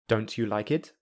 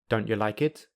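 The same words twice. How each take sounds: First: The t and y stay separate sounds. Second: The t is replaced by a glottal stop. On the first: "I will say them without linking" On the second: "I will say them with the glottal plosive"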